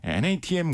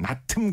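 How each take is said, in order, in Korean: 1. 글자를 하나씩 따로 읽어요. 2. 짧은 한 단어로 읽어요. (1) "엔에이티엠이라는 약자로 불리우는" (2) "발음하기 쉽게 그냥 나틈"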